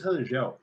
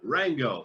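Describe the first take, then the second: First: The name is said with Brazilian Portuguese pronunciation. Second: The name is said with a foreign, non-Brazilian pronunciation. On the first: This is how Brazilians say the name. The speaker calls it right. "they can say it correctly" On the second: This is how people abroad say the name. The speaker calls it wrong. "outside Brazil, they would say"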